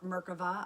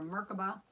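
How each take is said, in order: First: It is said with a Hebrew pronunciation. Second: It is said with a common English pronunciation.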